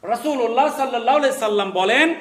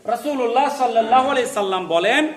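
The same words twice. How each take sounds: The two takes are said the same way.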